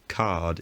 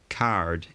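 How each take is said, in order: First: The r sound before the d is dropped. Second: The r sound before the d is pronounced. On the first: This was considered a vulgar pronunciation. "Card is deemed vulgar" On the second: This was considered the proper pronunciation. "Card is deemed to be more proper pronunciation"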